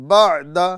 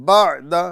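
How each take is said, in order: Both takes have the same delivery.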